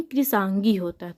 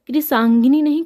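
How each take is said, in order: First: Said in the usual way. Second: कृसांगिनी said higher and louder as the wrong form; stress on the wrong form. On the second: Shown as a demonstration. Teacher warning students off the wrong spelling, emphatic. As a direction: punch कृसांगिनी to flag it as wrong. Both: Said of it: "कृसांगिनी नहीं, कृसांगी होता है".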